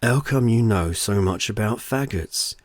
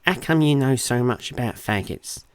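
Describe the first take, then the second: First: Slow, drawn-out mock Portsmouth accent. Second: Exaggerated Portsmouth accent, taunting; mock her with her own Portsmouth accent. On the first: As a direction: mimic her Portsmouth accent to taunt her. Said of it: "mocking her Portsmouth accent". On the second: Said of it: "mocking her accent". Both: A narrator's reading. Husband mocks his wife, mock Portsmouth accent.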